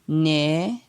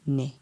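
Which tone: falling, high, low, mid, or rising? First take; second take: rising; low. First: The syllable has a rising tone. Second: The syllable has a low tone. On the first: "ton montant" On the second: "avec un ton bas"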